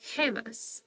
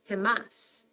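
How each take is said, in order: First: The stress is on the first syllable. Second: The stress is on the last syllable. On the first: The speaker calls it right. "the emphasis is going to go second to last" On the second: The speaker calls it wrong. "not gemas"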